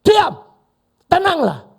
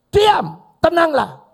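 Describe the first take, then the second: First: A high, loud command; commanding shout. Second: Slow commanding shout. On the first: Jesus rebuking the storm, loud commanding shout. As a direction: order the storm to be still. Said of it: "Cuma bilang apa?". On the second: Jesus commanding wind and waves, slow loud shout. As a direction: draw out a loud, high command. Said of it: "omongannya Yesus". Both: Acted.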